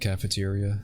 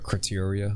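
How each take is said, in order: First: The name is said like the word cafeteria. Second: The name is said with a kr- start. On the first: The speaker calls it wrong. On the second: The speaker calls it right.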